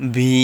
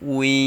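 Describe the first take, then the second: First: The word begins with a V sound. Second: The word begins with a W sound. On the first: The speaker calls it wrong. "এখানে অনেকে ভি এরকম উচ্চারণ করে, কিন্তু এরকম উচ্চারণ হবে না।" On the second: The speaker calls it right. "ওয়াও ইয়াজের উই"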